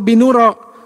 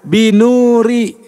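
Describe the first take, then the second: First: The word ends with an a vowel. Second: The word ends with an i vowel. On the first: The speaker calls it wrong. "atau binuro" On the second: The speaker calls it right. "fungsinya membuat kata berikutnya jar atau i"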